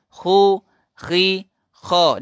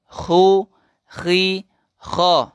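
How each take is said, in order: The two takes are said the same way.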